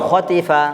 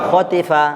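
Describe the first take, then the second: Both takes have the same delivery.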